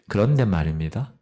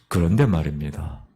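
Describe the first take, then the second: First: It is said in an ordinary, plain tone. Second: It is said in a grave, dramatic tone. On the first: The speaker calls it wrong. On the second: The speaker calls it right.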